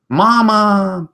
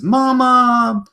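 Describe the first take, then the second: First: High, louder longing call; baby hippo. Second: High sustained little voice; baby hippo. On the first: Baby hippo calling the tortoise mama, high and louder. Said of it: "baby hippo ... saying". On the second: Baby hippo calling to its mama, high and tender. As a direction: call up to mama like a small child. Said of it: "baby hippo looks up ... says". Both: Acted.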